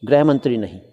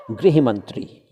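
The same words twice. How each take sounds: First: गृह said as "greh" like ग्रह, the mistake; wrong pronunciation. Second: गृह said with the "ri" sound, grih; correct pronunciation. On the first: Teacher shows journalists the wrong गृह, said greh. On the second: Teacher models the correct गृह मंत्री for journalists. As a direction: say गृह with ri, not re. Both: Shown as a demonstration.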